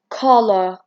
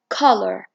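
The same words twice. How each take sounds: First: It is said with a British accent. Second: It is said with an American accent. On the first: "In British, ... they don't pronounce the R" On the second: "in American, ... this is how they pronounce it"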